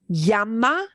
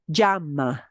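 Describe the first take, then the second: First: The ll sounds like a plain English y. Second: The ll is a y with a slight j. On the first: "a plain old English Y" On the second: "the way I say it, ... the tiniest bit of a j with the y combined"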